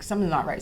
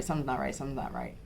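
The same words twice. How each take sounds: First: Said in the usual way. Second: Trailing off quieter and lower each time; fading repetition. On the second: Retold or imitated. New mother pleading with doctor's office, fading to near silence. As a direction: let it sink away, quieter with each repeat.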